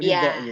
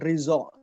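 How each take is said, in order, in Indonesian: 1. Konsonan tengahnya bunyi d. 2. Konsonan tengahnya bunyi z. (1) "bukan bukan Ridho gitu" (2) "kalau dot itu bacanya zo, jadi saya selalu dipanggil Rizzo"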